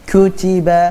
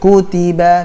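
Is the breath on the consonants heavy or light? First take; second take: heavy; light. First: The consonants carry a heavy puff of breath. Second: The consonants carry only a light breath. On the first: The speaker calls it wrong. "Bukan kutiba. Nah, terlalu banyak hamasnya. Salah" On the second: The speaker calls it right. "Kutiba biasa"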